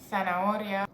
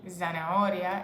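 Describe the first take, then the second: First: The word begins with a soft th sound. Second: The word begins with a buzzing z sound. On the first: The speaker calls it right. "it's th, like T H in English" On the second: The speaker calls it wrong. "it's not Z"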